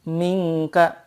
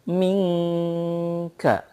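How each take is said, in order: First: The nasal sound before the k is short. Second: The nasal sound before the k is held long. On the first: The speaker calls it wrong. "belum ada gunnah yang dipanjangkan" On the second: The speaker calls it right. "Maka ditahan dua sampai tiga harokat"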